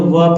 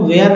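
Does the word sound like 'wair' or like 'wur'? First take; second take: wur; wair. First: The vowel is a short 'ur' sound. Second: The vowel is an open 'air' sound. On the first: The speaker calls it right. "वर पढ़ेंगे" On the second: The speaker calls it wrong. "वेयर नहीं पढ़ेंगे"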